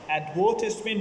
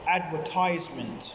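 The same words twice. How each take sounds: First: It is said with a British pronunciation. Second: It is said with an American pronunciation. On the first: "advertisement U K" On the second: "Americans advertisement"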